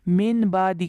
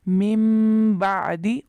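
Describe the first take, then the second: First: The first word ends with a plain n sound. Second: The first word ends with a nasal m sound. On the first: The speaker calls it wrong. "मिन बादी के बजाय" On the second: The speaker calls it right. "के बजाय मिम बादी"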